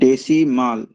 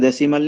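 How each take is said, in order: First: The final syllable has a long 'maal' vowel. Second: The final syllable has a short vowel. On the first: The speaker calls it right. "We call it as a माल" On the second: The speaker calls it wrong. "यहाँ पे डेसिमल नहीं"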